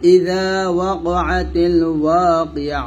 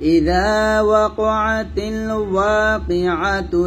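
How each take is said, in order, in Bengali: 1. বাক্যাংশের পরে থেমে যায়, শেষে h ধ্বনি দিয়ে। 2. থামে না, একটানা চলে যায়, শেষে -tu দিয়ে। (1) "এখানে থামলে কি হচ্ছে, এই তাটা হা সেকেন্ড হয়ে যাচ্ছে" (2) "মিলিয়ে পড়লে এরকম হবে"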